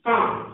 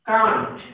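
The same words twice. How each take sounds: First: Can't with a clear final t; British can't, t pronounced. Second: Can't with the final t dropped; American can't, no t at the end. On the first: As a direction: sound the t in can't. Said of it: "British, can't". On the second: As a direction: say can't without the t. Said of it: "टी का pronunciation ना करें". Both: Shown as a demonstration.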